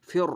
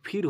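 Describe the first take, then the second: First: ফের with thick, held r; full heavy r. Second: ফির with narrow i, light r; wrong thin r. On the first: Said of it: "কি হবে?". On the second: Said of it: "কিন্তু আসলে কিন্তু ফির হবে না". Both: Shown as a demonstration.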